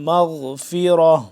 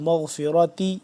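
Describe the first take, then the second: First: The word ends with a soft 'h' sound. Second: The word ends with a 'ti' sound. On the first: The reading stops at this word. "जब वक्फ़ हो जाए तो गोलता को हम हा में कन्वर्ट कर देते हैं" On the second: The reading continues without stopping. "अगर वक्फ़ ना करें तो मग़फ़िरती"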